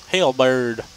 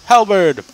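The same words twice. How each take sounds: First: Halberd with a long ay vowel, plain level; corrected pronunciation. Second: Halberd with a flat short e, loud and high; odd pronunciation. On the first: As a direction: Halberd said back at normal volume. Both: Shown as a demonstration.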